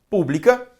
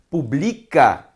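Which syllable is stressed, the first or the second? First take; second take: first; second. First: The stress is on the first syllable. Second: The stress is on the second syllable. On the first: "proparoxítona" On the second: "paroxítona"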